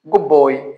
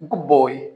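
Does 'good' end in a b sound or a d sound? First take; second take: b sound; b sound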